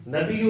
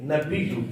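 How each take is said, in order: First: Higher "نبیو" as na-bi-yu, no doubling; wrong "نبیو", baa not pressed into ya; mispronunciation demo. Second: "نبیو" as na-biyy-u, doubled ya; firm model "نبیو"; correct pronunciation demo. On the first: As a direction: say "نبیو" lightly, ya single. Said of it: "نبیو بھی نہیں". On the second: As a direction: press the baa of "نبیو" into the ya. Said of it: "با کو یا کے ساتھ ملانا ہے". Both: Shown as a demonstration.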